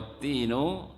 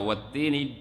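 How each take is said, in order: First: The word ends with an 'u' vowel. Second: The word ends with an 'i' vowel. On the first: It means 'and the fig'. "Kalau dibaca wat-tinu artinya dan buah tin" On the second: It means 'by the fig', an oath. "dibaca dengan majrur dengan kasrah wat-tini"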